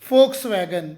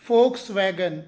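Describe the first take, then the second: Both takes have the same delivery.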